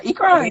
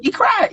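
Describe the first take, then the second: First: Said in the usual way. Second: High squeal. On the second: Shown as a demonstration.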